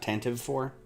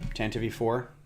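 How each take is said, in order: First: The name ends with a v sound. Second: The name ends with an ee sound. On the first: The speaker calls it wrong. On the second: The speaker calls it right. "I will also only say"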